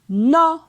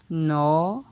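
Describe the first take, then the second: First: The syllable has a high tone. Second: The syllable has a rising tone. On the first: "Ton haut" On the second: "Ton montant"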